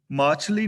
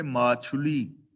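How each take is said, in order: First: ਮਾਛਲੀ in two beats, "maachh-li"; wrong reading. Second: ਮਾਛੁਲੀ in three beats, "maa-chhu-li"; correct reading. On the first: Teacher shows the reading to avoid, ਮਾਛਲੀ as "maachh-li". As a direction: say ਮਾਛਲੀ without a "u" after chh. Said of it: "ਮਾਛਲੀ ਨਹੀਂ ਪੜ੍ਹਨਾ". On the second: Teacher shows the right reading, ਮਾਛੁਲੀ as "maa-chhu-li". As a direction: sound the short "u" after chh in ਮਾਛੁਲੀ. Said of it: "ਛਛੇ ਥਲੇ ਔਂਕੜ ਹੈ". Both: Shown as a demonstration.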